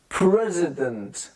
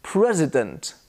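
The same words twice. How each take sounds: First: "President" slowed to "prezz-uh-dent"; drawn-out teaching model of "President"; exaggerated schwa. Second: "President" as "PREZ-uh-dent"; careful "President" with weak middle vowel; schwa demo. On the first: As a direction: slowly spell out the middle "uh" of "President". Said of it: "I'm trying to exaggerate". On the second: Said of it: "The I becomes a schwa". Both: Shown as a demonstration.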